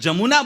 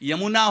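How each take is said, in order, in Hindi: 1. शब्द की शुरुआत j की आवाज़ से होती है। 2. शब्द की शुरुआत y की आवाज़ से होती है। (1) "યનો જ થાય છે" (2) "યનો જ થાય છે"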